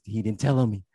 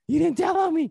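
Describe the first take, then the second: First: Said in the usual way. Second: Much higher, louder squeal of relief; overjoyed squeal. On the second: Retold or imitated. Boy squealing that his friend didn't snitch, overjoyed. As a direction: burst out with giddy relief. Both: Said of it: "I was like".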